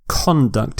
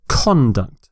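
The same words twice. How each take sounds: No difference in how they are said.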